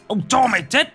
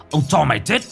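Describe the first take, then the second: First: Much higher, shrieked threat at its peak; furious scream. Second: Angry threat, somewhat higher; furious hiss. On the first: (hét lên điên cuồng) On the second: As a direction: snarl the threat. (rít lên đe dọa) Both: A narrator's reading. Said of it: "Ông rít lên".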